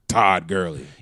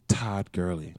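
First: The name is said loudly, with strong emphasis. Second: The name is said softly, without emphasis. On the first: The real star version of the player. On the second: A lesser, diminished version of the player.

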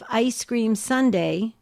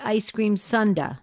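First: It is said in the usual general way. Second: It is said the Missouri way.

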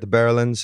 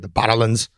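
First: It is said in the speaker's usual American accent. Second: It is said in an imitated Scottish accent.

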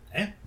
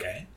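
First: It is said hard and with too much force. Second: It is said lightly, like a casual question. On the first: The speaker calls it wrong. "No, that was too hard" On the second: The speaker calls it right. "It's like a question"

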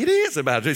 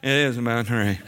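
First: It is said with excitement. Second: It is said in a bored tone.

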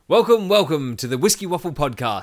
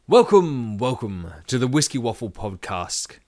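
First: It is said in his normal voice. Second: It is said in a put-on voice.

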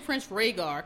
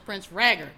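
First: The name Rhaegar is pronounced the usual way. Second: The name Rhaegar is pronounced with altered sounds. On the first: The speaker calls it right. "she doesn't say Prince Rhaegar" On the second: The speaker calls it wrong. "she just learned how to read. She says Prince Rhaegar"

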